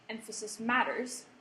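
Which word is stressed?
matters. The stress falls on the word matters.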